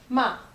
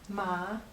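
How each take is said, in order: First: The pitch falls sharply from high. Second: The pitch rises from middle to high. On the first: It means to scold. "ma is to scold" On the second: It means hemp. "Ma is hemp"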